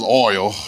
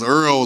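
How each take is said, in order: First: The vowel sounds like the one in 'boy'. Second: The vowel sounds like the one in 'earl'. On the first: This is the standard form. The speaker calls it right. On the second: This is the form heard at home. The speaker calls it wrong.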